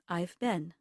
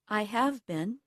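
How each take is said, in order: First: The word have is contracted onto the pronoun. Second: The word have is pronounced in full. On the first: "Will sound like" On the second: "Almost all native speakers will contract or shorten the pronoun that comes before have"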